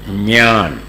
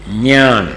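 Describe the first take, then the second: First: It is said with the Marathi pronunciation. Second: The same.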